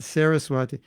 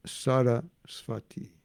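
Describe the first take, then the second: First: "Saraswati" with anglicised s sounds, sair-uh-swah-tee; English-style "Saraswati"; wrong pronunciation. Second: "Saraswati" slow, with sh sounds, shah-ruh-shwah-tee; slow Bengali-style "Saraswati"; correct pronunciation. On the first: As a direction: say "Saraswati" the Western way. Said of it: "It's not Saraswati". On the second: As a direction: say "Saraswati" carefully, the Indian way. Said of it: "it's not Saraswati, it's Saraswati". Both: Shown as a demonstration.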